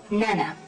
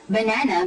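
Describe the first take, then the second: First: The first syllable is left out. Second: All three syllables are pronounced. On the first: This shows an omission disorder. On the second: This is the intended form.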